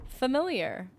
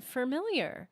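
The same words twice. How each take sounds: First: "Familiar" said fuh-MIL-yer; no added R. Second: "familiar" said as "fur-miliar"; R added. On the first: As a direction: open "Familiar" with an R-less "fa". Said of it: "like family". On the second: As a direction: start "familiar" like "fermentation". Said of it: "sounds like you're about to say fermentation". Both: Shown as a demonstration.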